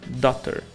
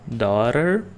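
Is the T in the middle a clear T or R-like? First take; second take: clear T; R-like. First: The middle T is a clear T sound. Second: The middle T sounds like a quick R. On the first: "ou daughter, não tem problema" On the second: "esse T vira mais um som de R"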